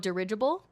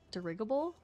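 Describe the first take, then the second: First: The second syllable sounds like ridge. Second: The second syllable does not sound like ridge. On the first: The speaker calls it right. "Ridge, like in ridge" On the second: The speaker calls it wrong. "I'm probably not saying it correctly"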